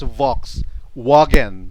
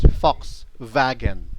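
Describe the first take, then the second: First: It is said with an English pronunciation. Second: It is said with a German pronunciation. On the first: "in English it's Volkswagen" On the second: "German pronunciation, it's Volkswagen"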